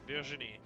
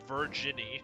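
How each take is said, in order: First: The name is said with French pronunciation. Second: The name is said with English pronunciation. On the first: The speaker calls it right. "Virginie is in fact a French name. Also, that's how you pronounce it" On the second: The speaker calls it wrong.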